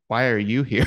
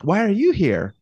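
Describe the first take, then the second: First: It is asked in an unfriendly tone. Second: It is asked in a friendly tone.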